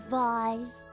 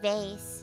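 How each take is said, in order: First: Vase is said the fancier, posher way. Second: Vase is said the plain everyday way. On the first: The vase looks fancy. "if it looks fancy enough, I'll call it a vase" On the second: It is an ordinary vase. "I pronounce it vase"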